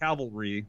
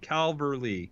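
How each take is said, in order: First: It is said with no L before the V. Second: It is said with an L before the V. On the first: The speaker calls it wrong. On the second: The speaker calls it right.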